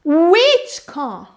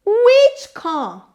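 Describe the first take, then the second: First: Said in the usual way. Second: "Which" pitched higher and louder than "car"; stress on WHICH. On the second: Shown as a demonstration. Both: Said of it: "ele enfatiza o which".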